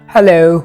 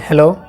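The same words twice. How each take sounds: First: It is said British-style, starting high then falling. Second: It is said plainly, without a British tune.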